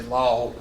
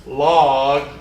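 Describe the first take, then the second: First: "log" as the Southern slip to avoid; wrong pronunciation to avoid. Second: "log" drawn out loud and carefully; careful pronunciation. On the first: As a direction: show a mispronounced Southern "log", said lower. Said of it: "Make sure I don't say". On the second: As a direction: say a deliberate, emphatic "log". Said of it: "Make sure I don't say log". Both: Shown as a demonstration.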